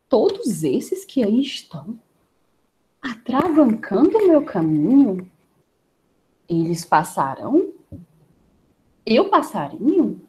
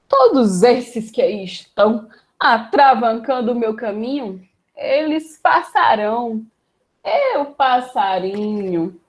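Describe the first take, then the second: First: It is said with doubt. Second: It is said with arrogance.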